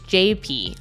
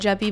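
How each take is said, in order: First: It is said as two separate spelled letters. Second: It is said as a single two-syllable word. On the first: The speaker calls it right. "it's J P like J P Morgan" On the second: The speaker calls it wrong. "people call it Jeppy"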